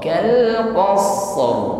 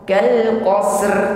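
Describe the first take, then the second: First: The s sound is sustained before the final stop. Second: The final consonants are run together directly. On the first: The speaker calls it right. "Qas sempurna sifatul shad, setelah itu ditutup sifatnya huruf qa" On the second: The speaker calls it wrong. "tidak secara langsung kal qasr"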